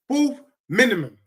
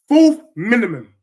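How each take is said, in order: First: Said in the usual way. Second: Loud, punched prediction; louder insistent Fourth minimum; emphatic. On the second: Real, not acted. Insisting on his league prediction.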